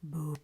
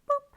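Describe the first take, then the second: First: It is said in a low voice. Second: It is said in a very high voice.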